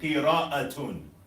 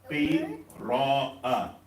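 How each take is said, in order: First: The word ends with a full -atun ending. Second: The word ends on a short vowel.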